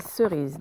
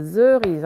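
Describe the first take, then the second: First: "cerise" begun with a soft hissed s; correct initial S sound. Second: "cerise" begun with a buzzing z, "zerise"; wrong initial Z sound. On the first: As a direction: say "cerise" with s first, z only at the end. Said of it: "hein, c'est cerise". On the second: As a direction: say "cerise" with a voiced z at the start. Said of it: "c'est pas cerise". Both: Shown as a demonstration.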